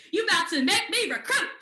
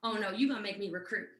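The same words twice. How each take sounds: First: Loud, high mock exclamation; retold outburst. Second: Low, quick mock dismay; retold reluctance. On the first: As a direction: burst out as the realization hits. Same realization, now loud and high. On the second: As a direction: drop the pitch as reluctance dawns. Retold dawning dread of recruiting.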